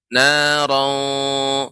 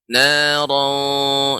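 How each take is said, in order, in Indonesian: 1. Kata ini diucapkan dengan bunyi tebal dan berat. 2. Kata ini diucapkan dengan bunyi tebal dan berat.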